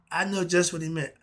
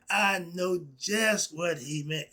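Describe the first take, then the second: First: Said in the usual way. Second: Slow down and weight each word of "I know just what he meant"; stretched out, stressing JUST and MEANT; slow emphatic repeat. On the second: Real, not acted.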